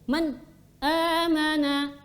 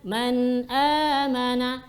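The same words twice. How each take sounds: First: The voice cuts off between man and amana. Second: The voice flows on from man into amana. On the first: The speaker calls it wrong. "memutus suara. Contoh begini" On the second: The speaker calls it right. "mengalir sedikit tapi tidak berlebihan"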